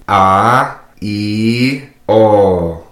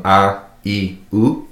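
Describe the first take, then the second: First: Long, louder "a, i, o"; "a, i, o", every vowel held long; dragged vowels. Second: Said in the usual way. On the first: Shown as a demonstration. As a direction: drag out each of "a, i, o" separately. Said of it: "our three drag vowels". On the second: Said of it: "our three drag vowels from".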